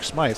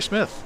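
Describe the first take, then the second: First: The name has a long 'eye' vowel. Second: The name has a short 'i' vowel. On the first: The speaker calls it wrong. "I was calling him Eric Smythe" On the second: The speaker calls it right. "it's actually Smith"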